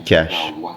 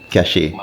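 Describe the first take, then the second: First: The word sounds just like the word cash. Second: The word is read out the way it's spelled. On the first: The speaker calls it right. "I guess it's supposed to be cash" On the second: The speaker calls it wrong. "the Jamaican in me reads the word the way how it's spelled"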